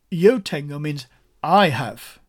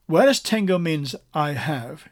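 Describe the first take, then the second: First: "I" in "I have" hit hard and loud; stress on I. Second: Said in the usual way. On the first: Shown as a demonstration. Preacher showing the Spanish emphatic pronoun, stress on I. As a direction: punch the word "I" in "I have". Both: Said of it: "It's what they call an emphatic pronoun".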